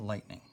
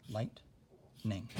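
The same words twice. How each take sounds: First: Said in the usual way. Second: "lightning" as light, long pause, ning; broken into syllables. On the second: Shown as a demonstration. Teacher showing the two syllables, split apart. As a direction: say "lightning" in two separate beats. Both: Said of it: "Those are the two syllables".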